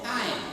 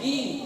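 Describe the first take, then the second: First: The syllable is said with an 'ai' vowel. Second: The syllable is said with a plain 'i' vowel. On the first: "Ada mana asal haim tu?" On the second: "Ada juga yang him"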